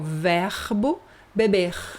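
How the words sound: The final R is the French-style Rio R. "importado da França... o pessoal do Rio de Janeiro fala assim"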